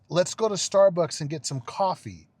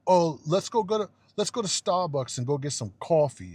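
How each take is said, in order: First: American accent with "coffee" as "cahfee"; correct American pronunciation. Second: Mock European accent. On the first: Shown as a demonstration. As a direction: say "coffee" with an open ah, pointedly. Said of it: "it's, it's". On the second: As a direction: mimic a European ordering "cawfee", mockingly. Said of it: "it's not".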